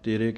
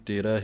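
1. ਸ਼ਬਦ ਦਾ ਅੰਤ 'e' ਸੁਰ ਨਾਲ ਹੁੰਦਾ ਹੈ। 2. ਸ਼ਬਦ ਦਾ ਅੰਤ 'a' ਸੁਰ ਨਾਲ ਹੁੰਦਾ ਹੈ। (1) "ਗਲਤੀ ਕਰਦੇ ਹਾਂ, ਤੇਰੇ ਕਹਿ ਜਾਂਦੇ ਹਾਂ" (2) "ਇਹਨੂੰ ਤੇਰਾ ਹੀ ਬੋਲਣਾ ਹੈ"

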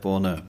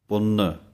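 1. "ਨ" ਬਹੁਤ ਹਲਕਾ ਅਤੇ ਨਰਮ ਹੈ। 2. "ਨ" ਥੋੜ੍ਹਾ ਜਿਹਾ ਦੁਹਰਾਇਆ ਜਾਂਦਾ ਹੈ, ਦਰਮਿਆਨੇ ਜ਼ੋਰ ਨਾਲ। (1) "ਜੇ ਬਹੁਤਾ ਹੀ ਪੋਲਾ ਬੋਲਦੀਏ ਤਾਂ ਪਾਠ ਦੀ ਆਵਾਜ਼ ਇਸ ਤਰ੍ਹਾਂ ਨਿਕਲਦੀ ਹੈ" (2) "ਇਹ ਦਰਮਿਆਨੀ ਜੀ ਆਵਾਜ਼ ਦੇਣੀ ਹੈ, ਥੋੜ੍ਹਾ ਜਿਹਾ ਅੱਧਕ ਦਾ ਸਹਾਰਾ ਲੈ ਕੇ ਇਸ਼ਾਰੇ ਮਾਤਰ"

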